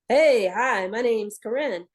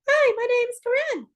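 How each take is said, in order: First: It is said in low chest voice. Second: It is said in high head voice.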